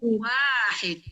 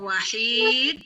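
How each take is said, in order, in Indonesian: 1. Vokal pertama dibaca panjang. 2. Vokal kedua dibaca panjang. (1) "wanya panjang" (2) "hanya panjang"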